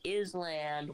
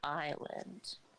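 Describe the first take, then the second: First: The s is sounded: is-land. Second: The s is silent: eye-land. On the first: This is how the spelling suggests it. "It's spelled like Island" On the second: This is how people actually say it. "Why do we pronounce it island?"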